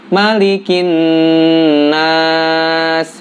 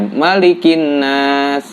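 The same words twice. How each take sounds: First: The nasal sound is held for three beats. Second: The nasal sound is cut short. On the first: The speaker calls it right. "harusnya tiga harokat" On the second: The speaker calls it wrong. "malah pendek"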